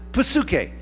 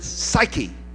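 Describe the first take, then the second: First: It is said with a Greek-style pronunciation. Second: It is said with an English-style pronunciation. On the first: "we would pronounce it psuche" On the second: "but you would pronounce it psyche"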